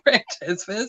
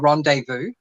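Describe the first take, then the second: First: The name is pronounced just as it is spelled. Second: The name is not pronounced as it is spelled. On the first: The speaker guessed from the spelling. The speaker calls it wrong. "this is how it's written, so that's how I'm pronouncing it" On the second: This is the hotel's real name. The speaker calls it right. "it's actually called the Rendezvous"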